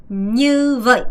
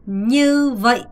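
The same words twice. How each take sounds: The two takes are said the same way.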